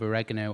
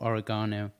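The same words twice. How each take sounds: First: It is said with an American pronunciation. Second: It is said with a British pronunciation.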